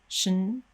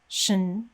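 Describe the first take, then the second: The two takes are said the same way.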